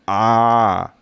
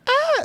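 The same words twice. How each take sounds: First: The scream is low and manly. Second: The scream is high like a girl's.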